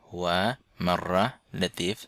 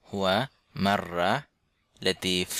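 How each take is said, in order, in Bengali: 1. প্রথম শব্দটি পুরোটা বলা হয়, দুই অক্ষরে। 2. প্রথম শব্দটি পুরোটা বলা হয়, দুই অক্ষরে।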